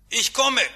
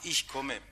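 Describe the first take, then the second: First: Called out high and loud from inside; calling out. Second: Sleep-talking. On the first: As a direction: shout through the locked door. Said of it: "den Nachtportier rufen". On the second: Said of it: "dann rufe ich im Schlaf". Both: Retold or imitated.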